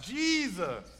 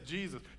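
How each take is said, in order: First: The word is stretched out long. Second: The word is said short and plain.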